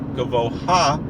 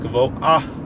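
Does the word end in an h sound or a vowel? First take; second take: vowel; h sound. First: The h comes before the final a vowel. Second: A slight h sound follows the final a vowel. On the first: The speaker calls it wrong. "It's not Gavo Ha" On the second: The speaker calls it right. "slight pronunciation of the hey at the end of the of the word"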